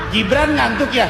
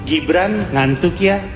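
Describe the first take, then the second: First: It is said like a real question. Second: It is said like a plain statement.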